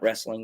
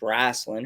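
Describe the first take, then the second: First: The word is said in the standard way. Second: The word is said as a drawled 'wrasslin'. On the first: The speaker calls it wrong. "It's not wrestling" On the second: The speaker calls it right. "it's wrasslin'"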